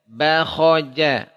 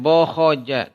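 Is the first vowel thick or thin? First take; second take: thin; thick. First: The first vowel is a clear, spread a. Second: The first vowel is dark and rounded, like o. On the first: The speaker calls it right. "Tapi bakhoja" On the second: The speaker calls it wrong. "Bukan bokhoja"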